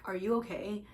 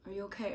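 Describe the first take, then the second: First: It is said in a condescending, mocking tone. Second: It is said in a sincere, caring tone. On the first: The asker looks down on the listener. The speaker calls it wrong. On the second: The asker genuinely wants to know. The speaker calls it right.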